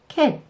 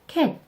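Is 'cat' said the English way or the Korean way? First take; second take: Korean; Korean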